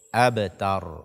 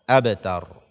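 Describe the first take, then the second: Both takes have the same delivery.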